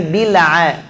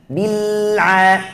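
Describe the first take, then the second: First: Bil'a with the ain bounced, slow; teacher shows the mistake to avoid, bouncing ain; wrong bouncing ain. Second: Bil'a with a clear throaty ain, no bounce; teacher demos the correct ain. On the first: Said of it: "jangan bil'a". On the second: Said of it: "bukan bila". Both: Shown as a demonstration.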